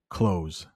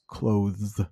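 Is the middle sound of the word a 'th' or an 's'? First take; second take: s; th. First: The word is said with an 's' sound. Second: The word is said with a 'th' sound. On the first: "let's just make it an S. So clothes" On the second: "It's pronounced clothes. Not easy"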